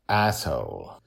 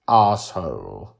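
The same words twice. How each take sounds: First: Said in the usual way. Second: Drawn-out British pronunciation; British accent. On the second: A narrator's reading. Grandpa dodges cursing by going British, in British accent. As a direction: say "Asshole" slowly, with a British "ah" opening. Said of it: "say it in a British accent".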